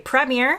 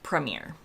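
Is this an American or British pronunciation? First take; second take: British; American. First: It is said with a British pronunciation. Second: It is said with an American pronunciation. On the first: "In the U K, they say premier" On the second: "in the U S, we say premier"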